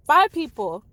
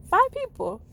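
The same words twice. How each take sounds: First: Said in the usual way. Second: "Five" hit much higher, amazed; stress on Five. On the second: Real, not acted. Vlogger proudly repeating the number of friends who left, emphatic. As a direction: land hard on "Five people.".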